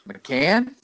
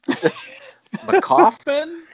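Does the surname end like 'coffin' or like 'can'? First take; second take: can; coffin. First: The surname ends with a 'can' sound. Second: The surname ends with a 'coffin' sound. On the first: The speaker calls it right. "I believe it's just McCann" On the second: The speaker calls it wrong.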